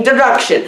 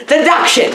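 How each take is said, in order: First: "deduction" said as "der-ruction"; mispronounced deduction. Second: Said in the usual way. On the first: Real, not acted. Reviewer trying to fix the word, still garbling "deduction" as "der-ruction". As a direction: swap the d of "deduction" for a slurred r. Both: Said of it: "I mean, deduction".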